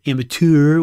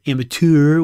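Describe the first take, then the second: First: It is said in a cheesy French accent. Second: It is said in a cheesy French accent.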